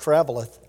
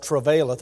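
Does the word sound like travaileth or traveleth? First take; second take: traveleth; travaileth. First: The middle syllable sounds like "vel". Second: The middle syllable sounds like "vail". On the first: The speaker calls it right. "but it's traveleth" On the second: The speaker calls it wrong. "I know it's easy to pronounce it travaileth"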